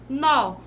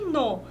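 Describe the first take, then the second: First: The word is said strong and stressed. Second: The word is said weak and unstressed. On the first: It means a knot. "monossílabo tônico, né? E ele é forte" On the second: It means 'in the', joining 'em' and 'o'. "monossílabo átono"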